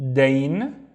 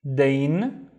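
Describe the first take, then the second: Both takes have the same delivery.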